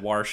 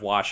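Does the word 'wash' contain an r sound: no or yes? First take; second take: yes; no. First: The word is said with an added r sound. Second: The word is said without any r sound. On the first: "everyone said Warsh" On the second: "instead of Wash"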